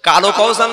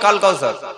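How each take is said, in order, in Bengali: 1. প্রথম শব্দটি একটি যোগ করা স্বরে শেষ হয়। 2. প্রথম শব্দটি ব্যঞ্জনে শেষ হয়। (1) "কালো কাউসার না কাল কাউসার?" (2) "ও বলবে কাল কাউসার"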